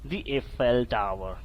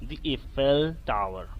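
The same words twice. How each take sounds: The two takes are said the same way.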